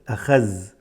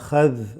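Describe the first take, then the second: First: The last consonant is a 'z' sound. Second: The last consonant is a 'dh' sound. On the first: The speaker calls it wrong. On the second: The speaker calls it right.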